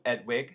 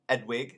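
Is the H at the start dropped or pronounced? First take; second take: dropped; dropped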